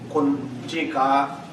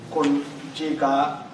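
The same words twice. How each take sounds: The two takes are said the same way.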